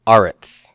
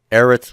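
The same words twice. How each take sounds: First: Aretz said AH-rets, long open A; the lengthened pausal aretz. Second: Eretz with short e, EH-rets; the normal short-vowel eretz. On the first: Teacher showing students: long-A aretz. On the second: Teacher contrasting vowels for class: short eretz. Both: Shown as a demonstration. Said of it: "Eretz would become".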